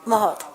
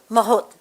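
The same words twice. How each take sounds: The two takes are said the same way.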